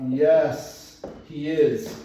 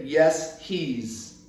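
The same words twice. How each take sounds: First: "is" said in full, stressed. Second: "he is" squeezed into "he's"; wrong contracted answer. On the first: Teacher models a short answer, stress on "is". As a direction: put the weight on "is", no contraction. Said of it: "we put the emphasis on the verb". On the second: Teacher shows what not to say, contracted "he's". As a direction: run "he is" together as "he's". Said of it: "You cannot say". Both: Shown as a demonstration.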